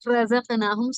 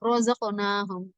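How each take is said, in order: First: The first r sounds light with a plain vowel. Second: The first r sounds heavy with a rounded vowel. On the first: "சாதாரணமா சொன்னோம்னா" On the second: "நம்ம தஜ்வீதோடனா"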